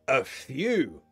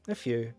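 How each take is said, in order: First: It is said so that it sounds like many. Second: It is said so that it sounds like few. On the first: Quite a lot of friends came. "If you say it like that, it sounds like a lot" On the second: Hardly any friends came. "Not many, right?"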